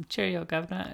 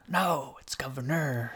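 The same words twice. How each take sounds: First: Mock British greeting, pitched up and softer; high, quiet stage-British accent. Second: Mock correction into an American accent; exaggerated American accent, joking correction; American accent, correcting the British one. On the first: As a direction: put on a cheery caricature British accent. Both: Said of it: "how they lost their accent".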